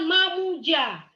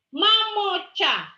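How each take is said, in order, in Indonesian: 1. Ada vokal u dan bunyi j. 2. Ada vokal o dan bunyi ch. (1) "salah juga" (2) "Yang benar mamoca"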